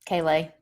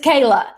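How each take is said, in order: First: The name ends with an 'ay' sound. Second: The name ends with an 'uh' sound. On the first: The speaker calls it wrong. "that's my East Tennessee accent" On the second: The speaker calls it right. "but it's Kayla, silent I"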